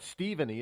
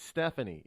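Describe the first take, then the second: First: Stephanie said as "Steven-ee"; "Stephanie" built on Steven; mock mispronunciation. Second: Stephanie said as "STEF-uh-nee"; "Stephanie" starting like Stef; standard pronunciation. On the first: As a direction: say Stephanie with a long ee in the first syllable. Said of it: "'cause it's not Stephanie". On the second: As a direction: say Stephanie with a short e first. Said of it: "it's Stephanie, is it not?". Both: Shown as a demonstration.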